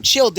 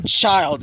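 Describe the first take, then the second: First: Put-on Childe with a short i, like chilled; name said Childe. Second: Put-on child with a long i, as the word for a kid; name said child. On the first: Narrator telling listeners how he says the name, Childe as chilled. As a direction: say Childe as chilled, not like a kid. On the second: Narrator naming the pronunciation he rejects, child as kid. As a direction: say child like a young kid, the way he avoids. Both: Shown as a demonstration. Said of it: "I'm not gonna call him child".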